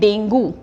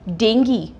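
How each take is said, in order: First: The word ends with an "oo" sound. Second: The word ends with an "ee" sound. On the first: The speaker calls it wrong. "ये बहुत ही common miss pronounce word है, हम इसको बोलते हैं डेंगू" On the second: The speaker calls it right. "तो इसकी correct pronunciation क्या है?"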